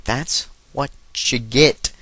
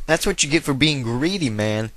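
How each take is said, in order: First: Word-by-word, stretched-out gloating; slow, pointed taunt. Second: Said in the usual way. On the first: Acted. Gamer taunting a burned opponent, slow deliberate repeat. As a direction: space out each word for emphasis.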